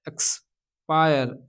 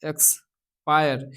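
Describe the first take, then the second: The two takes are said the same way.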